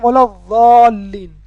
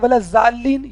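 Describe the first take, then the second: First: The key consonant is a heavy emphatic sound. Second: The key consonant sounds like a j. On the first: The speaker calls it right. "असल लफ्ज़ है वला ज़ालीन, यानी ज़बान दाढ़ों से टच हो" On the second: The speaker calls it wrong. "कुछ लोग कहते हैं वलत जालीन, ये भी गलत है"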